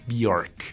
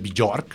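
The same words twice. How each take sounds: First: The J is not pronounced as a consonant. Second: The J is pronounced as a consonant sound. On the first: The speaker calls it right. "se dice Björk" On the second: The speaker calls it wrong. "No se pronuncia la J, no se dice Björk"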